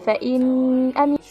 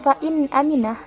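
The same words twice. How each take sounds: First: The n is nasalized and blurred into the vowel. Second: The n is pronounced clearly and distinctly. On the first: The speaker calls it wrong. "bukan fa'in aminah ... mendengung atau samar" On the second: The speaker calls it right. "dibaca secara jelas"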